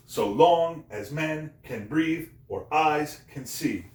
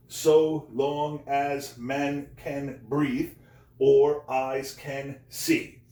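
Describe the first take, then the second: First: Slow da-DUM swing: "so LONG as MEN can BREATHE or EYES can SEE"; iambic heartbeat stress. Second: Very slow, each syllable given its own beat. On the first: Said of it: "It's just like a heartbeat". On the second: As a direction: spell out the line as ten drawn-out syllables. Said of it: "Ten syllables". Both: Shown as a demonstration.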